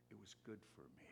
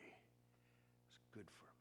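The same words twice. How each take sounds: First: Soft, quick repeat. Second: Slow, breathy whisper to himself. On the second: Pastor whispering his lesson from a brutal church, hushed. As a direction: let it fall to a whisper. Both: Real, not acted. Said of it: "I've said many times".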